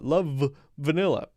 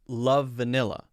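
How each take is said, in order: First: The V sound is said twice, separately. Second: One shared V sound links the words. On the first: The speaker calls it wrong. "Why would I want to say love vanilla" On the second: The speaker calls it right. "We want to share the V"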